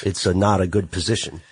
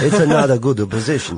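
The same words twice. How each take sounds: First: A hint of an Italian mobster accent; slight Italian accent. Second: Put-on louder, laughing Italian accent; hammed-up Italian accent. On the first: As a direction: slip into a faint Italian accent. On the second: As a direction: ham up the Italian mobster accent. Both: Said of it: "I got a little Italian there".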